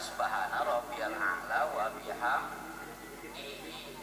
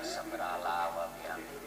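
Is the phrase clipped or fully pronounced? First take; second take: fully pronounced; clipped. First: Every syllable is said fully and clearly. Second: It is rushed and slurred, syllables dropped. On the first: The prayer is said as it should be. The speaker calls it right. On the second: The prayer is said carelessly in a hurry. The speaker calls it wrong.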